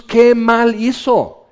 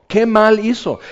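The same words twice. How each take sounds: First: ¿qué mal hizo? drawn out slowly, qué stressed; slow emphatic question. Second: Said in the usual way. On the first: Shown as a demonstration. Preacher asks the congregation, slow and emphatic. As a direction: linger on each word of ¿qué mal hizo?.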